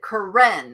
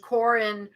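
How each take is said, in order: First: The stress is on the second syllable. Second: The stress is on the first syllable. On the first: "with an emphasis on the E" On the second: "Corin like Karen"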